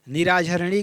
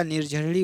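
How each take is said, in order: First: निराझरणी with a long extra "aa" after r; निराझरणी in four open, separate beats; wrong form. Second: निर्झरणी with r closing the first syllable; निर्झरणी without any vowel between r and jh; corrected form. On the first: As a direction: say निराझरणी as "ni-raa-jhar-ni". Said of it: "का निर्झरणी हो जाएगा". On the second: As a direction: say निर्झरणी as "nir-jhar-ni". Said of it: "हो जाएगा". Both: Shown as a demonstration.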